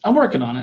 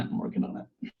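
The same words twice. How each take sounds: First: Said in the usual way. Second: Whispered, under the breath; a soft whisper to yourself. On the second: Real, not acted.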